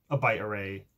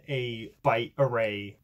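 First: A touch of put-on fanciness; lightly affected, self-consciously fancy phrasing. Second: Said in the usual way. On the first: Real, not acted. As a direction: say it as if being fancy. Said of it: "why I said it like that".

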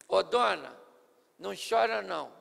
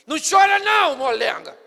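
First: Calmo e suave, sem pressa; terno. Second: Grito áspero, bem mais alto e agudo; rude. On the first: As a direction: console a mãe com carinho. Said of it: "Foi mais ou menos assim". (Jesus consolando a viúva com ternura) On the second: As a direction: bronca sem dó na viúva. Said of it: "Ele poderia falar assim". (grito grosseiro à viúva) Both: Shown as a demonstration.

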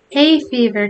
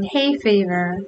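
First: A breathless, slightly louder gasp. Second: Said in the usual way. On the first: Acted. Alan gasping an excuse to Tom, mild gasp. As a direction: gasp it out mid-laugh. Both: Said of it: "gasped Alan".

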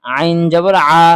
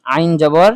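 First: আইন জবর আ, ending on a clear open আ; correct reading. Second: আইন জবর read ending on আইন, the wrong way; common mistake. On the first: Teacher correcting viewers, firmly reading আইন জবর আ. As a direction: give the right reading আইন জবর আ, firm and falling. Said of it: "কিন্তু এখানে". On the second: Teacher demonstrating the viewers' usual wrong reading of আইন জবর. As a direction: show the mistaken reading আইন জবর আইন with a rising question tune. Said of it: "আমরা অনেকেই কি পড়ি?". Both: Shown as a demonstration.

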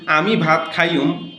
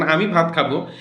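First: "আমি ভাত খাইয়ুম", standard আমি with Noakhali খাইয়ুম; mixed standard-dialect wrong form. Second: Said in the usual way. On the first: Shown as a demonstration. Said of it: "ঠিক একইভাবে ভুল". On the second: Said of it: "শুদ্ধভাবে বলেছেন".

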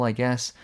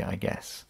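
First: Said in the usual way. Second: Quiet, breathy resigned I guess; resigned mutter. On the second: Real, not acted. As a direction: mutter it off to the side, giving up. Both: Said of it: "I guess (contrast)".

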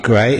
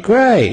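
First: Said in the usual way. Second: Great said high with a fall; great jumped high. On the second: Shown as a demonstration. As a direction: pitch great up and let it drop.

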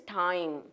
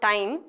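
First: Time with a long gliding "ah-ee" vowel; correct pronunciation. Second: Time with a short, unglided vowel; wrong pronunciation. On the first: Teacher recapping the correct word, correctly pronounced. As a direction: glide fully through time. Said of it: "it is time". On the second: Teacher recapping the mistake, mispronounced. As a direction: say time without a full glide. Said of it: "So, it's not time". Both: Shown as a demonstration.

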